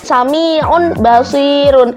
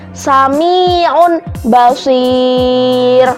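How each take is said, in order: First: The last word ends with the syllable -un. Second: The last word stops on a silent r. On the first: It is the written form. "itu kan tulisannya" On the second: It is read this way when stopping at the pause. "cara membacanya"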